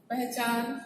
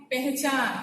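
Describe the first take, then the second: First: पहचान with short 'a' first, 'pah-chaan'; correct pronunciation. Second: पहचान with 'e' first, 'peh-chaan'; wrong pronunciation. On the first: Teacher reading out the word for correct pronunciation. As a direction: start पहचान with an open 'puh'. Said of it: "इसका उच्चारण आप ठीक करेंगे". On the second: Teacher showing the next misspelt word, wrong pronunciation. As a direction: start पहचान with 'peh'. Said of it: "गलत है". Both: Shown as a demonstration.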